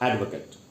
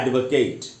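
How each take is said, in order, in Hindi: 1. आखिरी सिलेबल में छोटा, कमज़ोर स्वर है। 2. आखिरी सिलेबल में पूरा 'ate' स्वर है। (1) "नाउन के रूप में ... तब इसको पढ़ना चाहिए एडवोकेट" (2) "वर्ब के रूप में ... इसका उच्चारण हो जाएगा एडवोकेट"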